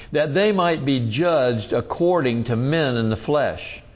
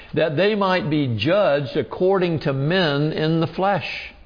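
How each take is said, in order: No difference in how they are said.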